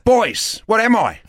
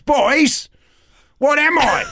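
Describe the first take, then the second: First: It is said a little louder. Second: It is said very loudly.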